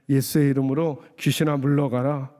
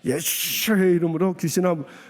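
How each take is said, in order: First: It is said in a calm, ordinary voice. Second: It is said in a harsh, forceful voice.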